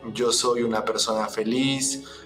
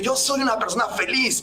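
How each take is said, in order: First: It is said flatly, without conviction. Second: It is said with energy and conviction.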